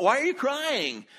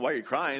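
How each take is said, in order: First: High, loud and slow, brimming with celebration; Why are you crying? sung out high and loud; joyful, urging question. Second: Said in the usual way. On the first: Retold or imitated. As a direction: ask it as if tears make no sense on a day this happy. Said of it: "but they were saying". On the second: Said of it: "but it wasn't".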